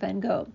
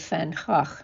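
First: The name is said the English way. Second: The name is said the Dutch way.

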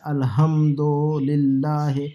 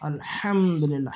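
First: It is said in South Asian style, plain h. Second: It is said with h from the throat.

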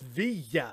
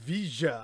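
First: The double L sounds like a 'y' sound. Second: The double L sounds like a 'j' sound. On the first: This is the way the speaker expected it. "it's via" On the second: This is how some regions say it. "you pronounce the double L as je"

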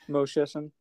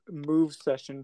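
First: The name is said without a V sound. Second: The name is said with a V sound. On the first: The speaker calls it right. "The V is silent" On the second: The speaker calls it wrong. "I've always pronounced it like Move Session"

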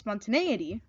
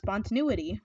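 First: The middle syllable sounds like 'neigh'. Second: The middle syllable sounds like 'new'. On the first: "it's an A, like a horse" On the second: "If it was spelled with a U, it'd be pronounced"

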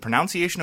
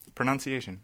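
First: The second syllable sounds like 'nounce'. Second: The second syllable sounds like 'nun'. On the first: The speaker calls it wrong. "You mispronounce pronunciation" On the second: The speaker calls it right. "I know how to say it"

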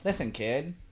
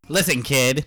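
First: It is said in a soft, bubbly voice. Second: It is said in a tough gangster voice.

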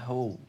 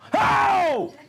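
First: It is said flat and quiet. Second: It is said as a loud shout.

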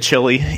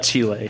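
First: The name is said like the English word chili. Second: The name is said the way locals say it. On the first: This is how people here usually say it. The speaker calls it wrong. "here you'd probably say chili" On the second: This is how the country's own people say it. The speaker calls it right. "but it's Chile"

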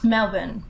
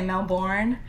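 First: The word is said in an Australian way. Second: The word is said in an American way.

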